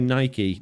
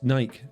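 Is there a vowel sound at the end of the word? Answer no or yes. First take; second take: yes; no. First: The final E is sounded as a vowel. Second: The final E is silent. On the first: The speaker calls it wrong. "It's like people that say Nike. No" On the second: The speaker calls it right. "you don't have to say the E on the end of it"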